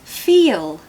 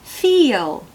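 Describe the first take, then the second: The two takes are said the same way.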